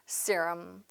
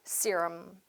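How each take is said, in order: First: It is said with English vowels and stress. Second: The same.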